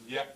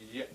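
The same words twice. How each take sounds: First: The final vowel is fully voiced. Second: The final vowel is voiceless, with no voicing. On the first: The speaker calls it wrong. "A voiced vowel, this would be pronounced as" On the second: The speaker calls it right. "But the normal pronunciation is yeah"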